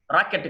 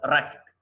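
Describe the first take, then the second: First: రాకెట్ with "-kett"; wrong full vowel. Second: రాకెట్ with "-kit"; short "-it" ending. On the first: Teacher showing learners the mistake, రాకెట్ ending "-kett". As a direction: give రాకెట్ a full open e. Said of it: "కాదు". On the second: Teacher correcting learners, రాకెట్ ending "-kit". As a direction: weaken the second vowel of రాకెట్ to i. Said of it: "రాకెట్ కాదు". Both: Shown as a demonstration.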